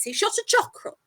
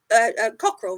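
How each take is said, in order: First: Chockerel said with a ch sound, like chocolate; slip of the tongue. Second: Cockerel said with a clear k sound; corrected word. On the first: Host slipping up on cockerel, saying chockerel. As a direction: say chockerel, starting with ch. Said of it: "uh, a cockerel, rather". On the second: Host correcting her slip, saying cockerel properly. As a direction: fix it to cockerel with a hard k. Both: Real, not acted.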